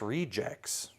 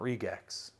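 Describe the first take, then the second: First: The g is said like a j. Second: The g is said as a hard g. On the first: The speaker calls it right. "It's pronounced rejects, the G is pronounced like a J" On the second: The speaker calls it wrong. "not regex"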